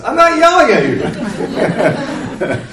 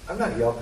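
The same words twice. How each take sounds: First: High, slow, laughing denial; laughing mock protest. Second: Said in the usual way. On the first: Counselor to counselee, mock defensive denial while laughing. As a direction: playfully act out a defensive reply through laughter. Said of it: "what I wanted to say is". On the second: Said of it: "rather than say".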